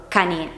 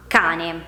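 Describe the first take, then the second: First: Cane stressed on the final E, ca-NÉ; misplaced final stress. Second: Cane stressed on the A, CÀ-ne; stress on first syllable. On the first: Teacher showing how cane is not pronounced, stress wrongly on NE. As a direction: put the weight on the last syllable of cane. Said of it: "non la pronunciamo cane". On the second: Teacher giving the correct cane, stressed on the A. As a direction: put the weight on CA in cane. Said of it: "L'accento infatti cade sulla A". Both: Shown as a demonstration.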